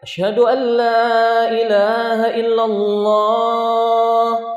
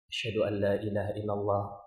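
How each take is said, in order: First: It is said in a loud voice. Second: It is said in a quiet voice.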